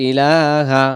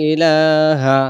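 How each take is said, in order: No difference in how they are said.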